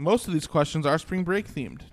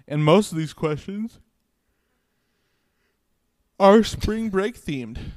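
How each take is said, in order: First: It is said clearly without a yawn. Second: It is said through a yawn.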